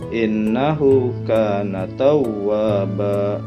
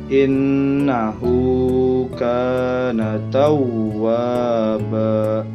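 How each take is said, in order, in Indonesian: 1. Vokal pada hu dan ka pendek. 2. Vokal pada hu dan ka panjang. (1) "Jadi jangan" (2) "hu dibaca panjang, kaf juga dibaca panjang"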